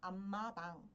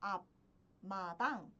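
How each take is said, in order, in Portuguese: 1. A primeira sílaba termina com som de m. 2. A primeira sílaba termina com som de p. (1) "pronuncio como 앞마당" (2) "Ao invés de pronunciar como"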